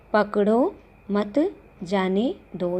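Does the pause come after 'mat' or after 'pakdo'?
after mat. The pause comes after the word 'mat'. The child should be let go.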